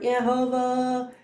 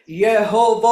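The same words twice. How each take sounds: First: It is said quietly and weakly. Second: It is said loudly and commandingly.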